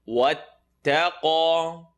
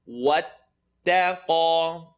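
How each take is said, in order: The two takes are said the same way.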